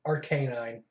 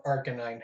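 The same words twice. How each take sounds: First: Arcanine said ar-KAY-nine; alternate pronunciation. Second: Arcanine said AR-kuh-nine; alternate pronunciation. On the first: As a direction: say Arcanine with a long "kay" in the middle. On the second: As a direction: say Arcanine with a short "kuh" in the middle. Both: Shown as a demonstration. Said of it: "however you wanna pronounce it".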